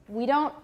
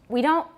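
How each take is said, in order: Both takes have the same delivery.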